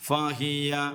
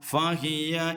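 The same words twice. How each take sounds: Both takes have the same delivery.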